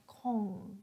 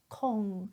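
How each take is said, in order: First: The R sound is left out. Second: The same.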